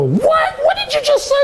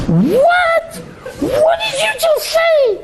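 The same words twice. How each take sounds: First: Mock shocked woman, much higher, laughing; incredulous laughing "what"; imitating a woman testing him. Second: Startled laughing "what"; imitating her outraged disbelief; shocked woman. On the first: Imitating women's shocked reply.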